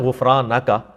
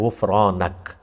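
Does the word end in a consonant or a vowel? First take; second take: vowel; consonant. First: The word ends with a final vowel sound. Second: The word stops on a final consonant. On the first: "लफ्ज है" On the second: "लफ्ज आप इसको वफ करेंगे"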